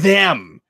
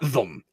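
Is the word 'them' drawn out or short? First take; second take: drawn out; short. First: The word is long and overpronounced. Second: The word is said short and reduced. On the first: "Like just a really long them" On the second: "he never says like got them"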